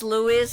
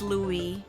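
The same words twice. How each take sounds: First: The final S is sounded. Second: The final S is silent. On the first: "In English it's" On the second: "in French it's Louis. Silent S"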